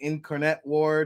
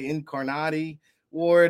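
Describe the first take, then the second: First: It is said with a Jersey accent. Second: It is said with an Italian accent.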